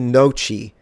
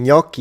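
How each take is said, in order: First: The word begins with a plain n sound. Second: The word begins with an ny sound. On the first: The speaker calls it wrong. "I hate it when people tell me noci" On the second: The speaker calls it right. "Gnocchi, exactly"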